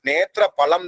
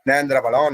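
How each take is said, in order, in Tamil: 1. முதல் சொல்லில் t-க்கு முன் n ஒலி இல்லை. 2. முதல் சொல்லில் t-க்கு முன் n ஒலி உள்ளது. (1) "கடாட்சினாலே விளந்த பழம்ங்கிறதுனால நேத்திர பழம்" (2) "நிறைய பேருக்கு உச்சரிப்பு மாறி போயிருது"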